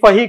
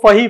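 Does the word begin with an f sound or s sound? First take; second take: f sound; f sound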